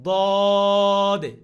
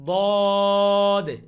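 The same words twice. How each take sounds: Both takes have the same delivery.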